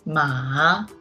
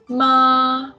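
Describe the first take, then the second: First: The pitch dips low, then rises. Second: The pitch stays level and high. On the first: "The third tone is a low rising tone" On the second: "Ma is a flat tone"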